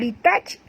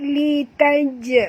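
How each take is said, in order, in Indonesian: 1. Bunyi j di akhir berhenti mendadak tanpa memantul. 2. Bunyi j di akhir dilepas dengan memantul. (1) "bukan li taj" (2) "lantunkan dia"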